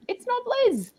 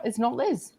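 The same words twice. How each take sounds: First: Very high playful squeak on it's not Liz; high comic echo; squeaky high repeat. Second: Said in the usual way. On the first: Shown as a demonstration. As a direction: pipe it up high, teasing. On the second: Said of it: "it wasn't quite".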